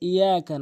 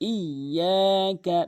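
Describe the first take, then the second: First: The y sound is single and short. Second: The y sound is doubled and lengthened. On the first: The speaker calls it wrong. "বলে ইয়াকা" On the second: The speaker calls it right. "Double উচ্চারণ করতে হবে"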